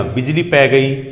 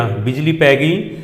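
First: Said in the usual way. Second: ਬਿਜਲੀ ਪੈ ਗਈ drawn out slowly with ਪੈ leaned on; slow dictation repeat. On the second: Shown as a demonstration. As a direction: repeat ਬਿਜਲੀ ਪੈ ਗਈ slowly so the class can copy it.

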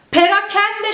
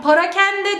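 First: Perakende with a clear e in the first syllable; doğru telaffuz. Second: Parakende with a at the start; the wrong form Parakende, pa not pe; yanlış telaffuz. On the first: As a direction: say Perakende, pe not pa. (doğru söyleyiş: Perakende) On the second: (yanlış söyleyiş: Parakende) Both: Shown as a demonstration. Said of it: "Parakende değil".

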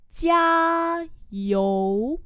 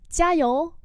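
First: Two long held syllables; slow model reading. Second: Said in the usual way. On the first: Shown as a demonstration. Teacher modelling "keep it up" for learners, slowly. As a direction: hold the first high, then drop.

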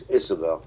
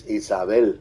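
First: "Isabel" said the English way, IZ-uh-bel with a short i; "Isabel" with English vowels, IZ-uh-bel; "Isabel" the way an English speaker says it. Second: "Isabel" said the Spanish way, ee-sah-BEL with pure vowels; "Isabel" the way a Spanish speaker says it. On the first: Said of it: "but in English". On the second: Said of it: "In Spanish". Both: Shown as a demonstration.

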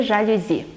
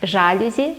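First: Жалюзі stressed on "зі", zha-lyu-ZI; last-syllable stress. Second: Жалюзі stressed on "жа", ZHA-lyu-zi; first-syllable stress. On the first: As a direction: punch the final syllable of жалюзі. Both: Shown as a demonstration. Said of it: "як правильно сказати".

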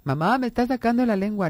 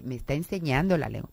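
First: Higher whiny Mamá, me está sacando la lengua; tattling child. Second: Said in the usual way. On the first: Retold or imitated. Child tattling to mother about his brother, whiny. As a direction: stretch it like a child telling on a sibling.

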